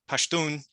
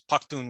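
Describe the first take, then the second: First: The middle consonant is a soft 'sh' sound. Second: The middle consonant is a hard 'kh' sound.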